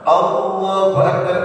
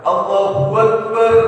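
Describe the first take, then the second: First: No w sound comes before akbar. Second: A voiced w sound comes before akbar. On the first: The speaker calls it right. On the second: The speaker calls it wrong.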